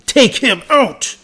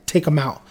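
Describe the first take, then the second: First: Higher, slow, drawn-out mock gangster order; mock menacing boss. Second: Said in the usual way. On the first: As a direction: stretch the words like a mock-threatening boss. Claude's order, repeated in a voice.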